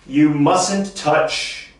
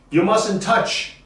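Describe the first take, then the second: First: You mustn't touch, very slow, mustn't weighted; slow model sentence. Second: You mustn't touch, higher, mustn't stressed; higher repeat. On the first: Teacher modelling slowly for students to repeat. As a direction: draw it out for the class. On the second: Teacher repeating the rule higher for the class. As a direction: lift the second go. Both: Shown as a demonstration. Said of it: "Everybody say that".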